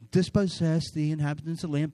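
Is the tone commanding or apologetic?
apologetic. It is said in a soft, apologetic way.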